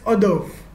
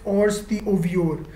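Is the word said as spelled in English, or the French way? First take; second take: French way; as spelled. First: It is said the French way, like 'or-durv'. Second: It is read letter by letter as spelled. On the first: The speaker calls it right. "it's pronounced as hors d'oeuvre" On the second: The speaker calls it wrong. "it's not pronounced as hors d'oeuvre"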